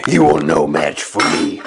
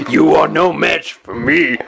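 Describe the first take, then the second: First: Much lower menacing Sith; deep, grave villain threat; deep Darth Maul voice. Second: Macho Man style trash talk; brash wrestler promo voice. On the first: Copying the mask's line. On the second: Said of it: "that sounds like a wrestler". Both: Pretend.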